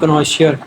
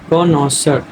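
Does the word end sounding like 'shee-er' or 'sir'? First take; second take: shee-er; sir. First: The word ends with a 'shee-er' sound. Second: The word ends with a plain 'sir' sound. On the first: The speaker calls it wrong. "ये ऐसे नहीं बोलना आपने" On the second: The speaker calls it right. "उसको आपने बोलना है कॉनॉसर"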